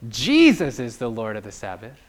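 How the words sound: The stress is on Jesus.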